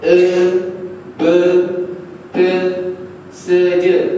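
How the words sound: The letter names are said with an 'e' vowel. This is how southern speakers read it. "kita hak yang sebelah selatannya, dia baca"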